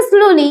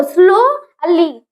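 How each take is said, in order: First: Said in the usual way. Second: स्लोली slowly, as two separate syllables, स्लो then ली; स्लोली in two drawn-out beats, स्लो, ली; split into syllables. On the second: Shown as a demonstration. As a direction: break स्लोली after स्लो to show both syllables. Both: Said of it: "two syllable हो गया".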